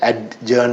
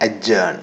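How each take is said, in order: First: Adjourn said "ad-jurn", d sounded out; adjourn with the d spoken, slowly; wrong spelling pronunciation. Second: Adjourn said "a-jurn", the d silent; adjourn with a silent d, falling; correct pronunciation. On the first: (adjourn ഡി ഉച്ചരിച്ച്, തെറ്റായി) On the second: (adjourn ഡി silent ആയി) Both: Shown as a demonstration. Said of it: "അപ്പൊ adjourn എന്നല്ല".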